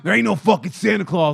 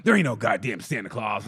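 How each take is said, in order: First: Louder, gruff-styled mock punk; tough kid. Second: Lower, world-weary mock kid; jaded kid. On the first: Smoking jaded kid announcing Santa isn't real, louder. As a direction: declare it like a kid with a cigarette. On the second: Jaded nine-year-old telling everyone off, low and weary. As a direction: grumble it like a bitter tiny cynic.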